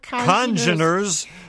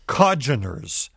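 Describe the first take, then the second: First: The N sound before the G is pronounced. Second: The N sound before the G is dropped. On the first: The speaker calls it right. "The N should be pronounced congeners" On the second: The speaker calls it wrong. "you were mispronouncing the word congeners. ... it sounded like codgeners"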